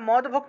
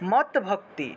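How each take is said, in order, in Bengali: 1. প্রথম অংশটি d ধ্বনি দিয়ে শেষ হয়। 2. প্রথম অংশটি t ধ্বনি দিয়ে শেষ হয়। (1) "এটা মদ ভক্তি উচ্চারণ না করে" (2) "এই হসন্তযুক্ত দটা তৎ হিসেবে উচ্চারণ হবে"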